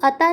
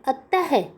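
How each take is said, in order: First: It ends on a plain vowel, no h sound. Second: It ends with a breathy h sound. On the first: The speaker calls it wrong. "इसको अता नहीं बोलेंगे" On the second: The speaker calls it right. "ह की आवाज के साथ बोलते हैं"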